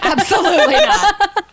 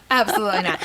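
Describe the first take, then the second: First: Laughing denial. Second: Said in the usual way. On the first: Real, not acted.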